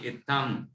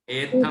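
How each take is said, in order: First: The word begins with an 'i' vowel. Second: The word begins with an 'e' vowel. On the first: The speaker calls it right. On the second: The speaker calls it wrong. "एत्थम नहीं"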